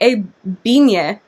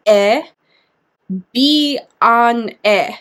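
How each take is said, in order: First: "E bine" said smoothly as two words, weight on "bine"; native-sounding "E bine"; correct Romanian. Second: "E, bi, an, e" broken into four separate syllables with pauses; mocking the misspelt "E, bi, an, e" syllable by syllable; wrong pronunciation. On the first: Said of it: "they would say". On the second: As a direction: split "E, bi, an, e" into stilted chunks as the author spells it. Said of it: "That's how she thinks "e bine" should be pronounced". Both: Shown as a demonstration.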